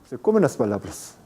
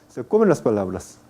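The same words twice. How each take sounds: The two takes are said the same way.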